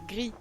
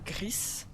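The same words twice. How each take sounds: First: The word ends with no s sound. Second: The word ends with an audible s sound. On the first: "si je le prononce à la, à la française" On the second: "sous la prononciation espagnole de gris"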